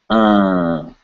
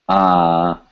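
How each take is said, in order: First: The vowel is said through the nose. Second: The vowel is said through the mouth only. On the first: "the vowel through your nose" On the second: "the regular vowel"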